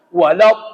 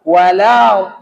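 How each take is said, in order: First: The sound is pressed and cut off abruptly. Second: The sound flows on smoothly without pressure. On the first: The speaker calls it wrong. "Jangan langsung walau, bo. Itu salah" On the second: The speaker calls it right. "Mengalir dia. Karena dia sifatnya rakhawa"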